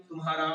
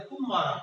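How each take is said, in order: First: Said in the usual way. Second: तुम मारा run together, leaning on तुम; stress on first syllable. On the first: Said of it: "normal बोल रहे हैं". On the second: Shown as a demonstration. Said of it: "लेकिन यहाँ जोर पड़ रहा है". (तुम मारा के तुम पर बलाघात)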